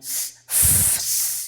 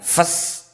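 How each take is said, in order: First: The f sound is held long and soft. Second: The f sound is cut short. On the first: The speaker calls it right. "tapi fes, gitu nih. Lembut" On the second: The speaker calls it wrong. "bukan fes"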